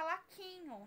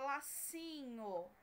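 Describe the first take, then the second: First: The middle consonant is a k sound. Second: The middle consonant is an s sound. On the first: The speaker calls it wrong. "Não tem laquinho" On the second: The speaker calls it right. "eu quero o som do si"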